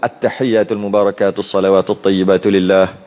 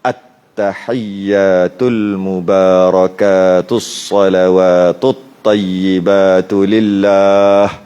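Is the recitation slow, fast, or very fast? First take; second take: fast; slow. First: It is recited quickly with moderate held sounds. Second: It is recited slowly with long held sounds. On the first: "At-tahiyat kita baca laju" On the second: "kalau baca slow-slow"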